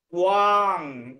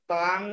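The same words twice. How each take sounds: First: ওয়াং drawn out with a clear "tu-aang" glide; corrected ব-ফলা glide. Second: তাং said with plain t, no w glide; mispronounced ত্বাং. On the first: Shown as a demonstration. Teacher correcting the student's pronunciation, ওয়াং with long w glide. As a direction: stretch ওয়াং, sounding the w after the t. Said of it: "ওয়াং উচ্চারণ হবে এখানে". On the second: Retold or imitated. Teacher quoting the student's error, তাং without the glide. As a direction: drop the w, saying তাং as "taang". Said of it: "তাং উচ্চারণ করছো, তয় ব ফলা আছে".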